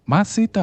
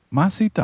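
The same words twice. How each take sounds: First: High, distressed rising question; breaking voice. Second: High, rising agitated question; urgent accusation. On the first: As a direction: ask it high, as if the voice is about to break. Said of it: "והפעם הקול שלו כבר נשבר". (שאלה גבוהה בקול נשבר) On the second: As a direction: demand it with a sharp rise in pitch. Frightened sailor interrogates Jonah. (שאלה מאשימה ונסערת) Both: A narrator's reading.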